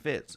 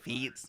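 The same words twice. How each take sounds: First: The name is said with an American English pronunciation. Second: The name is said with a Mexican Spanish pronunciation. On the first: This is how the family's Louisiana side says it. "it's fucking Fitz coming from his dad" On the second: This is how it was said growing up in Mexico. "my dad, you know, growing up pronounced it Fitz"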